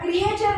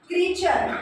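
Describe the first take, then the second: First: The start is said as two vowels, 'kri-eh'. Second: The start is said as one long 'kree'. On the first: The speaker calls it wrong. "याला क्रिएचर नाही वाचायचं" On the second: The speaker calls it right. "ईएचा उच्चार ई होत असतो"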